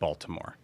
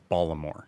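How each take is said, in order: First: It is said with a standard pronunciation. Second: It is said with a local Maryland pronunciation. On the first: The speaker calls it wrong. "It is not" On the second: The speaker calls it right. "That's how they talk"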